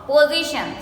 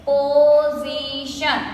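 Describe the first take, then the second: First: Said in the usual way. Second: "Position" drawn out as po-zi-shun; three long, even beats on "Position"; broken into syllables. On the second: Shown as a demonstration. Teacher answering how we break it, "Position" slowly syllable by syllable. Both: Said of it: "So, how do we break it?".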